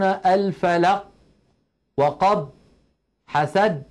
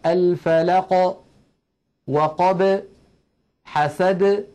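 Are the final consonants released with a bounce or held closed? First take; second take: held; bounced. First: The final consonants stay closed without a release. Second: The final consonants are released with a slight bounce. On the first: The speaker calls it wrong. "لا يقولون" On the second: The speaker calls it right. "بل يخرجونه بالتباعد كما ذكرنا"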